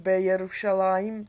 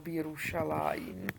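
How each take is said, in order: First: A bare b comes before a separate Jerušalajim. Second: Bi comes first, merged into a single word, Birušalajim. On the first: This is how modern Hebrew would suggest reading it. The speaker calls it wrong. "což by nám zase evokovala moderní hebrejština" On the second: This is the correct reading with the vowel hireq. The speaker calls it right. "je chýrik a je Birušalajim"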